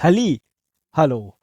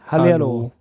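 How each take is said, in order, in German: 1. Zwischen den beiden Hälften gibt es eine Pause. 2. Beide Hälften gehen ohne Pause ineinander über. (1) "Ich sag ja nicht Halli, Hallo" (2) "Ich sag das zusammen"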